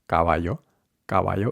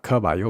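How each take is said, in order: First: Caballo with unaspirated k; low, rising caballo, no puff; muted k starting caballo; Spanish k. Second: Puffed k at the start of caballo; English k. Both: Shown as a demonstration.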